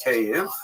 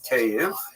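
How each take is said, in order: First: The name is said in the Ukrainian way. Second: The name is said in the Ukrainian way.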